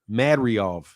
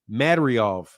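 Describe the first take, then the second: The two takes are said the same way.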